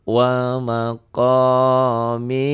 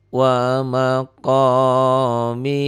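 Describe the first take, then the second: No difference in how they are said.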